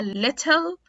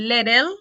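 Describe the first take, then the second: First: British "little" with a crisp T; British clear T. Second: Louder "little" as "liddle"; American flapped T. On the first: Teacher contrasting with American D, British clear T. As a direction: say little as "lit-tel", real T. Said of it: "في ال British accent". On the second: Teacher drilling T plus L examples, flapped T. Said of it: "هيتنطق D". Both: Shown as a demonstration.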